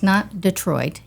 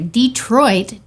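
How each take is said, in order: First: The first syllable sounds like 'duh'. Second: The first syllable sounds like 'dee'. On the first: It names the city in Michigan. The speaker calls it wrong. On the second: It names the town in Texas. The speaker calls it right. "You have to say it correctly in East Texas"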